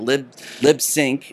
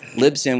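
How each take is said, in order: First: The name ends with a 'sink' sound. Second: The name ends with a 'sin' sound. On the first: The speaker calls it wrong. "People always say Lisbon or LibSync. Nope" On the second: The speaker calls it right. "It's Libsyn"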